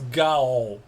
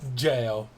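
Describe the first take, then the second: First: The word begins with a hard g sound. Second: The word begins with a j sound. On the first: The speaker calls it wrong. "I see those set of words and it's Gao" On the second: The speaker calls it right. "it's pronounced jail anyway"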